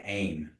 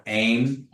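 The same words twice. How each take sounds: First: Aim with a falling tone, softer; settled falling aim. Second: Aim with a rising tone; questioning rise on aim. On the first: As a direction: let aim drop at the end. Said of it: "you say aim". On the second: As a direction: lift the pitch on aim like asking. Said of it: "like you're asking a question". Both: Shown as a demonstration.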